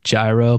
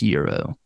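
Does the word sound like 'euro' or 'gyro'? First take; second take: gyro; euro. First: The word sounds like its spelling, 'gyro'. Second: The word sounds like the word 'euro'. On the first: The speaker calls it wrong. "It's spelled G-Y-R-O, so it's like gyro" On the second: The speaker calls it right. "but it's pronounced Euro"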